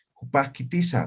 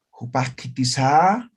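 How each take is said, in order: First: Said in the usual way. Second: Jupasquitiza drawn out slowly with a rising sing-song tune; exaggerated rising tune. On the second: Shown as a demonstration. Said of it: "yo no digo".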